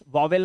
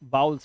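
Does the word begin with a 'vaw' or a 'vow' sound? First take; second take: vaw; vow. First: The first syllable sounds like 'vaw'. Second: The first syllable sounds like 'vow'. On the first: The speaker calls it wrong. "वॉवेल नहीं" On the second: The speaker calls it right.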